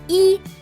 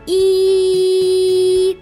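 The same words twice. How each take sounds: First: The vowel sound is cut off very quickly. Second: The vowel sound is held for a long time. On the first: "А коли на короткій, коротко" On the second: "співайте її пісеньку довго. Ось так"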